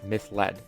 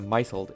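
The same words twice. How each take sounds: First: It sounds like 'miss-led', split after the 's'. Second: It sounds like 'mizzled', split before the final 'ed'. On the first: The speaker calls it right. "instead of misled" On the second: The speaker calls it wrong. "my brain instinctively pronounces it as a misled"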